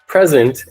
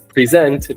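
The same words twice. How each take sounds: First: The stress is on the first syllable. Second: The stress is on the second syllable. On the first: It is a noun, a gift. "present is a gift" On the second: It is a verb, to show. "present means to show and tell"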